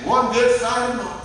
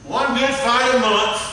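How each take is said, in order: First: Said in the usual way. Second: Slow and deliberate, leaning on good; slow emphasis. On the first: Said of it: "He said". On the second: Shown as a demonstration. Preacher repeats the husband's line to the congregation, slow and emphatic. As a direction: let good fight a month land slowly. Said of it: "preacher repeats the line for emphasis".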